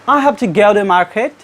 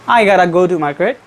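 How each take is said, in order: First: "Have to" is said in full, unreduced. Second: "Have to" is reduced to "gotta".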